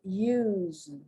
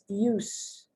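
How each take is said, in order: First: The word ends with a buzzing Z sound. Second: The word ends with a hissing S sound. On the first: "that the S is being pronounced like" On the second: "The S one says use, the use, that's a noun"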